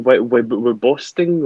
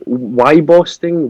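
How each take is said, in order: First: Stammered Wy-, Wy-, Wyboston with a short WIB first syllable; retrying pronunciation. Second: Wyboston said slowly as WHY-boston, unsure of it; unsure pronunciation. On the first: Correcting himself on the place name, Wyboston as WIB-oston. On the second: Sounding out an unknown place name, Wyboston as WHY-boston. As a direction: try Wyboston with a long WHY in the first syllable. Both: Real, not acted. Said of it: "how do you pronounce this place?".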